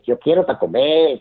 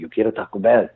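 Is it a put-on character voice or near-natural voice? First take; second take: character; natural. First: It is said in a put-on character voice. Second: It is said close to his natural voice.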